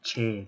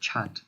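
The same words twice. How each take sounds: First: It is said in an American accent. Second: It is said in a British accent.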